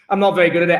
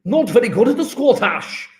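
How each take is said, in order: First: Said in the usual way. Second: Clumsy, swooping Scottish accent; attempted Scottish accent. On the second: Shown as a demonstration. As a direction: put on a poor Scottish accent. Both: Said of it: "I can't do a Scottish accent".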